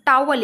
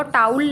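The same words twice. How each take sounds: First: टावल said as tow-al with two syllables; correct pronunciation. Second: टाउल squeezed into one syllable, towl; wrong pronunciation. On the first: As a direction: say टावल with the vowel after the diphthong. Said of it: "इसको टाउल नहीं पढ़ते हम". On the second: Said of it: "टाउल नहीं बोलते". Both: Shown as a demonstration.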